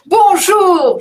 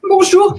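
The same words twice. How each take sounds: First: The greeting sounds cheerful. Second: The greeting sounds sad. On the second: "je suis triste"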